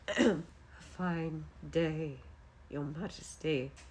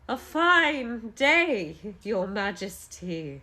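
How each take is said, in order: First: The voice is low, quiet and weak. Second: The voice is at normal strength and level. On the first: The speaker calls it right. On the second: The speaker calls it wrong.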